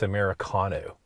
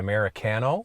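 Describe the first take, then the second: First: It is said the American way. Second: It is said the Canadian way.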